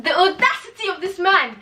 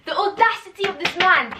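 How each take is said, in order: First: High, loud indignant cry; high scandalised outcry; outraged. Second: Outraged. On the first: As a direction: hit audacity hard in disbelief. Outraged at the character. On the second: Repeats outrage. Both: Real, not acted.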